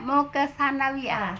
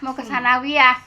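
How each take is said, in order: First: Sanawiyah begins with a sound other than s. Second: Sanawiyah begins with a plain s sound. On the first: The speaker calls it right. "bukan ya" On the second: The speaker calls it wrong. "jangan cenderungnya jangan ke sa ya. Ibu jangan bilang"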